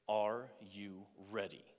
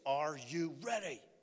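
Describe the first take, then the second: First: It is said in a calm voice. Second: It is screamed loudly.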